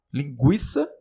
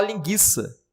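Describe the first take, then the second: First: "linguiça" with the U sounded, gw; U pronunciado. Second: "linguiça" with a silent U, as "linguiça" said gui like "guia"; U mudo. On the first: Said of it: "você pode até falar". ("linguiça" com o U pronunciado) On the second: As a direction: drop the U sound after G in "linguiça". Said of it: "porque você não vai falar linguiça". ("linguiça" sem pronunciar o U) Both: Shown as a demonstration.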